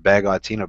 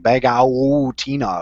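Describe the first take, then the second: First: The 'a' vowel is short and plain. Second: The 'a' vowel is drawn out and overemphasized. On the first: The speaker calls it right. "it should be like however the Zane just said it" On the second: The speaker calls it wrong. "overemphasize the ah? ... really hang on that a little more"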